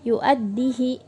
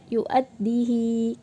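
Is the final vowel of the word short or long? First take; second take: short; long. First: The final vowel is short, not lengthened. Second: The final vowel is lengthened. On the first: "kita membacanya pendek atau tidak dibaca mad" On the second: "kita biasanya membacanya yu'addihi"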